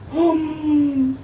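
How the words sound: It is voiced while breathing in. "श्वास लेते हुए हम बोलना पड़े"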